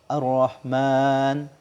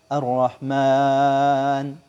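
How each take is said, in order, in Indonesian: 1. Huruf mad panjang terakhir ditahan dua harakat. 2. Huruf mad panjang terakhir ditahan empat harakat. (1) "itu dua" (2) "Empat. ... Itu empat"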